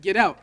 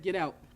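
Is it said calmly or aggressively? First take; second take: aggressively; calmly. First: It is said more aggressively. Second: It is said fairly calmly.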